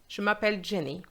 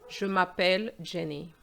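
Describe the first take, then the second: First: The answer comes at once, without hesitation. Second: The answer comes slowly, with hesitation.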